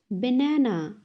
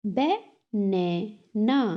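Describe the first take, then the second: First: Said in the usual way. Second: "Banana" slowly split as ba, na, na; three separate beats on "Banana"; syllable by syllable. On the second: Shown as a demonstration. Teacher has class repeat, "Banana" broken in three. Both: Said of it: "तीन syllables में divide".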